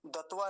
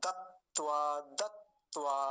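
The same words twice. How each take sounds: First: दत्वा quickly joined with only one t; mistaken single t. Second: दत्वा as dat-tvaa, both t's heard; double t. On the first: Teacher rejecting the wrong form, mistaken single t. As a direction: say दत्वा as da-tvaa without holding the t. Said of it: "नहीं". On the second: Teacher correcting the single-t error, double t. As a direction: hold the t in दत्वा before tvaa. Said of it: "एक ही ता बोलते हैं बीच में". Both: Shown as a demonstration.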